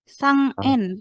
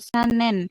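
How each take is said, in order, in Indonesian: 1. N-nya adalah bunyi ng yang lemah dan terpisah. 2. N langsung menyambung ke vokal berikutnya. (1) "dibacanya menjadi sang N" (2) "bukan sanen"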